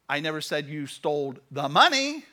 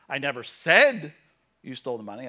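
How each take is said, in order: First: The word "money" carries the main stress. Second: The word "said" carries the main stress. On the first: Other things were stolen instead. "You stole everything else" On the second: It was written, not spoken aloud. "I posted it on Facebook, but I never said you stole the money"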